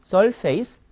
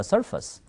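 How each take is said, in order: First: "surface" slowly mispronounced as sol-feis; Korean-style "surface", with a full "face" syllable; wrong reading as face. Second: "surface" said as SUR-fus; English "surface", stressed first, weak second vowel; correct reduced ending. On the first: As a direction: say "surface" ending like the word face. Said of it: "네, 아닙니다". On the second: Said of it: "us 정도가 돼요". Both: Shown as a demonstration.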